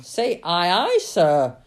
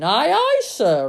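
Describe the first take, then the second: First: Loud captain's order; big, commanding shout at the speaker's own pitch; roaring. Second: High, loud sailor's reply; eager, ringing acknowledgement; smart reply. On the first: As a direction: roar it as a command. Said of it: "roared the captain". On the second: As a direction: answer the captain smartly, at full voice. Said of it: "just as smartly". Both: A narrator's reading.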